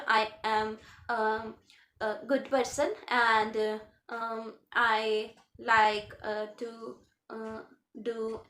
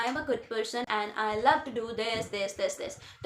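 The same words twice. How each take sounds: First: Hesitant halting speech. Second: Said in the usual way. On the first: Shown as a demonstration. Teacher to exam students, showing halting hesitant speech. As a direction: stop and start with ums and uhs, slowly. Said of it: "मैं ऐसे ना बोलूँ". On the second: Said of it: "तो मेरा एक flow बना रहना चाहिए".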